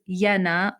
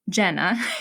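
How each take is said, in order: First: The name is said with a Finnish pronunciation. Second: The name is said with an American pronunciation. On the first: "the Finnish" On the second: "the American uh, pronunciation"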